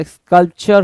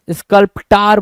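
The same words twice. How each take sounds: First: स्कल्पचर said skulp-cher with a ch sound; correct pronunciation. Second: स्कल्प्टार said skul-p-taar with a long final aa, mocking the misreading; mispronounced sculptor. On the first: Teacher gives the right reading skulp-cher. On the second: Teacher mocks the student's misread word skul-p-taar. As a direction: read स्कल्प्टार as the wrong spelling sounds, skul-p-taar. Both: Shown as a demonstration. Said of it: "स्कल्पचर होता है".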